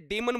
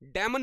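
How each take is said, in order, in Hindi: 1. पहला स्वर 'dee' जैसा बोला जाता है। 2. पहला स्वर 'day' जैसा बोला जाता है। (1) "ये डीमन बोला जाता है" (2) "डेमन नहीं बोला जाता"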